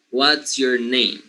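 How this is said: The voice falls at the end. The speaker calls it right. "And then I drop the intonation at the end"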